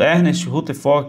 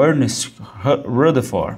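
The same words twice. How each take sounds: First: The name is said with Portuguese sounds. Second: The name is said with English sounds.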